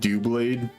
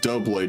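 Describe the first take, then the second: First: The first syllable sounds like 'doo', as in do. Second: The first syllable sounds like 'dub', as in double. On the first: This is a playful pronunciation that is more fun to say. "it sounds like I'm saying do" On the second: This is the official pronunciation of the name. "the Pokemon's name is pronounced Doublade because it's double blades"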